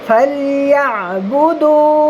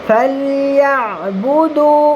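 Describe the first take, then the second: No difference in how they are said.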